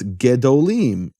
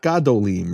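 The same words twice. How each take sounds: First: "gedolim" with a reduced "ge", as ge-do-LEEM; short first vowel. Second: "gadolim" with an open "gah" first syllable; full A vowel. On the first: Teacher showing the suffixed word, "gedolim" with short eh. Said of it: "When you add a suffix to that". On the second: Teacher showing the mistaken form, "gadolim" with open ah. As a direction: keep a full "ah" at the start of "gadolim". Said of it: "not gadolim". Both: Shown as a demonstration.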